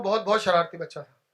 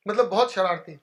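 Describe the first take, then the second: First: बहुत said twice, each one leaned on hard; stress on बहुत. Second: Said in the usual way. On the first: Shown as a demonstration. Owning up to the audience how naughty he was, बहुत stressed twice. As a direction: hammer the repeated बहुत, बहुत. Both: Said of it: "दो बार और बोल देता हूं".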